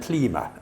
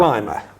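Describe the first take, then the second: First: The name is said in a Scottish way. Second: The name is said in a standard way.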